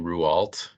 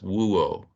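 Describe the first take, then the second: First: The name is said with full American consonants. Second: The name is said the French way, barely any consonants. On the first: It helps people recognize who is meant. "saying it wrong by saying Rouault, which is what it looks like" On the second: It is how the family says the name. "he's French, of course, and he says Wuo. So there's like no consonants in there"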